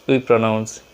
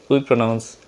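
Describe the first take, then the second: The two takes are said the same way.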